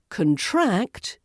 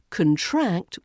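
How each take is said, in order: First: The stress is on the second syllable. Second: The same.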